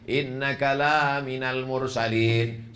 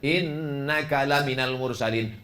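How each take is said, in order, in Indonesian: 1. Vokal dalam 'la' diucapkan panjang. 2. Vokal dalam 'la' diucapkan pendek. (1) "sesungguhnya engkau tidak termasuk rasul" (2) "sungguh salah satu dari rasul utusan Allah"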